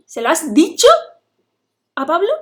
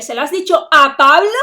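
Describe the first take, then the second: First: "dicho" punched loud and rising, in disbelief at the telling; stress on DICHO. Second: "a Pablo" punched very loud with a rising question; stress on PABLO. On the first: Teacher showing how sentence accent shifts meaning, stress on "dicho". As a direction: hit "dicho" hard, then add "a Pablo" after it. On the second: Teacher showing how sentence accent shifts meaning, stress on "Pablo". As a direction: build to a loud, incredulous "Pablo". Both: Shown as a demonstration. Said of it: "el acento de la frase".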